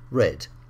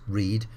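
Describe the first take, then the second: First: The vowel is short, like in 'red'. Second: The vowel is long, like in 'reed'. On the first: It is the past tense. "read changes to read" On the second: It is the present tense. "the spelling doesn't change, but the pronunciation changes"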